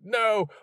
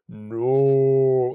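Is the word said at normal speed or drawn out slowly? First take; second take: normal speed; drawn out. First: It is screamed quickly at normal speed. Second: It is stretched out in slow motion.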